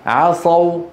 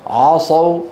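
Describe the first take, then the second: First: The ain is light and thin. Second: The ain is heavy and thick. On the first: The speaker calls it right. "العين مرققة" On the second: The speaker calls it wrong. "نكون قد فخمنا العين ولا يصح"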